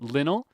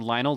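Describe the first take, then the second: First: The first vowel is short, as in lint. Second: The first vowel is long, as in lion. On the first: "like lint" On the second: "like lion"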